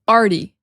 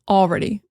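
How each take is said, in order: First: The L is dropped and the word is reduced. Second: The L is pronounced and the word is full. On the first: "when we talk fast, it often sounds like already" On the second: "We do pronounce the L and, and the whole word sometimes"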